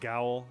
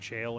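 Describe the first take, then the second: First: The word begins with a hard g sound. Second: The word begins with a soft j sound. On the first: The speaker calls it wrong. "I used to think it was Gowl" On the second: The speaker calls it right. "not jail"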